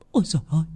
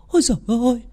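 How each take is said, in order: First: Stammering fright. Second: Ôi giời ơi jumps much higher, panic building; rising panic. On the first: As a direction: stammer ôi giời ơi under your breath in shock. (lắp bắp ôi giời ơi khẽ, run sợ) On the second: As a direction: repeat ôi giời ơi far higher as fear takes over. (ôi giời ơi vút cao, hoảng loạn) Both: Acted. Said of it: "Bà ấy lắp bắp".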